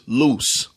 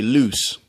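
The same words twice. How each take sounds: First: Said in the usual way. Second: LOOSE with a fronted "ew", like "lewse"; Baltimore pronunciation. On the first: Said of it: "somebody from New York would". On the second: Shown as a demonstration. Showing Baltimore speech, LOOSE as "lewse". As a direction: push LOOSE forward into "ew". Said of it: "You always say that ew".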